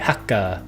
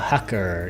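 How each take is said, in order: First: It is said with a Japanese accent. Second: It is said with a plain English accent.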